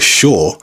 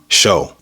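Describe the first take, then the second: First: The final R sound is pronounced. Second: The final R sound is dropped. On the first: "or shore" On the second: "that can become show"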